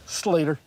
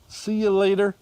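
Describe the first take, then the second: First: Words run together into one word, far-southern accent. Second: Three words said in a plain, standard accent.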